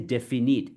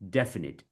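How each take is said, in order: First: The stress falls on a later syllable. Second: The stress falls on the first syllable. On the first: The speaker calls it wrong. "We don't say definite" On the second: The speaker calls it right. "it's definite. ... we stress on the def"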